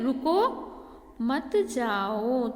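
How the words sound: There is a pause after the first word. Stay; don't go. "रुको के बाद अगर हम अल्पविराम लगाएंगे ... यहाँ पे गैप हो रहा है ना"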